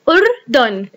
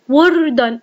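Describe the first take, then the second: First: The word begins with a glottal stop and short u. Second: The word begins with a w sound. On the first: The speaker calls it right. "أو أو أردن" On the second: The speaker calls it wrong. "أنا لم أقل أكتب كلمة وردن"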